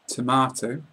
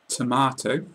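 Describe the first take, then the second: No difference in how they are said.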